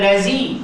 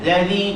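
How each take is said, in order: First: The middle consonant is a plain z sound. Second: The middle consonant is a voiced th sound. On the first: The speaker calls it wrong. "jangan lazi" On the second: The speaker calls it right.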